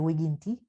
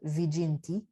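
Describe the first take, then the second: First: It uses the classical Latin pronunciation. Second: It uses the ecclesiastical Latin pronunciation. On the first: "I'm going to say" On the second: "You might also hear this word as"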